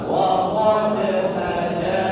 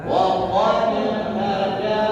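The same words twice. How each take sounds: No difference in how they are said.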